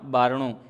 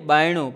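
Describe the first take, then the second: First: The middle consonant is an r sound. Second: The middle consonant is a y sound. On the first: The speaker calls it right. "બોલવું જોઈએ બારણું" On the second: The speaker calls it wrong. "આપણે શું બોલીએ?"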